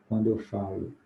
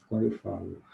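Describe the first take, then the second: No difference in how they are said.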